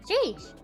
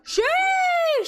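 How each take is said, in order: First: The word is said short and plain. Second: The word is drawn out with exaggerated energy. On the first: It is a casual personal reaction. The speaker calls it right. "I just say sheesh, something like that" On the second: It is the popular meme way of saying it. The speaker calls it wrong. "I don't say it as sheesh. I don't say that. It's ugh. It's annoying"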